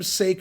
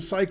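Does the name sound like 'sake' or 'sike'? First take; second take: sake; sike. First: The name sounds like the word sake. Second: The name sounds like the word sike. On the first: The speaker calls it right. "It's pronounced sake" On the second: The speaker calls it wrong. "My pronunciation, psych"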